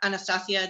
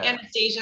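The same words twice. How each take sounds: First: The name is pronounced the Spanish way. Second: The name is pronounced the English way.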